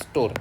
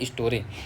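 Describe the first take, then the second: First: The word ends on the r sound. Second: The word ends with an added e vowel. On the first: The written word has no final e. "मतलब आर बस है उसमें" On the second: The written word has a final e. "अगर ई है तो ई ए बोलेंगे"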